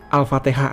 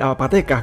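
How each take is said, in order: First: It is said with standard Arabic pronunciation. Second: It is said with Javanese-style pronunciation. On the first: "Itu pelafalan orang Jawa"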